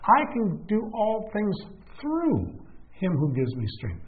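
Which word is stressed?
things. The word "things" carries the emphasis.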